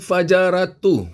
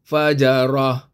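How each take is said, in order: First: The word ends with a t and u sound. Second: The word ends with a final h sound. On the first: The reading continues without a stop. "dia ta, dan dia baris depan" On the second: The reader stops at this word. "Kalau kita nak berhenti sini, barisnya hilang dan titiknya pun hilang. Jadilah bacaannya fajarah"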